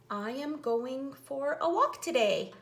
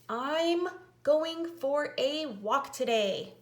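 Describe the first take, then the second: First: I am is said as two full words. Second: I am is shortened into one syllable.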